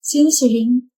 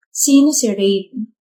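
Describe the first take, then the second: First: Said in the usual way. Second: Slow, pointed "Sino si Rain?" with weight on "sino"; pointed repeat. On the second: Acted. Girlfriend pressing her boyfriend about his ex, slow and pointed. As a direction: drag out "Sino si Rain?" to demand an answer.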